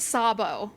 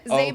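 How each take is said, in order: First: The name begins with an S sound. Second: The name begins with a Z sound. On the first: This is the original Hungarian pronunciation. "You're not supposed to pronounce the Z" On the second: This is the Americanized family pronunciation. "it was Americanized when my family moved here"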